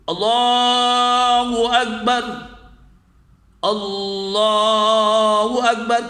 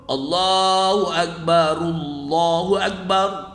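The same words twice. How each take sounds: First: The phrases stop, with a breath between them. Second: The two phrases run together without a break. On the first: "Kalau kita wakaf berarti ... kita bernafas dulu" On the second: "kalau disambung"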